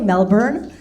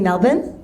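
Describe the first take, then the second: First: The last syllable is fully pronounced, like 'born'. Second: The last syllable is reduced, like 'bun'. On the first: This is how a newcomer says it. The speaker calls it wrong. "I know I don't say Melbourne" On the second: This is how locals say it. The speaker calls it right. "I say Melbourne"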